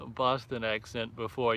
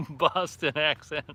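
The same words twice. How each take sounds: First: Said in the usual way. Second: Put-on Boston accent, slower and louder, half laughing; "Boston accent" drawn out in a hammed-up Boston accent; a playful jab in a Boston accent; mock Boston accent. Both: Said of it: "your impersonation of the Bo".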